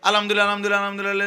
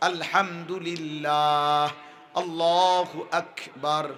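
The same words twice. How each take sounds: First: আলহামদুলিল্লাহ rattled off fast and slurred; mock rapid-fire recitation, shown as wrong; like a machine. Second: আলহামদুলিল্লাহ sung out slowly and clearly; each phrase recited unhurried, one per breath; calm, careful dhikr; slow correct recitation. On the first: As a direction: imitate a hurried machine reciting. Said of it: "এরকম মেশিনের মতো না". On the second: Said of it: "এভাবে এক নিঃশ্বাসে একবার". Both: Shown as a demonstration.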